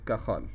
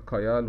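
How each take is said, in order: First: The middle consonant is a rough throaty 'kh'. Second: The middle consonant is a 'y' glide. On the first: The speaker calls it right. "الجي هنا هتنطق زي الخاء" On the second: The speaker calls it wrong. "في بعض بينطقها كايال"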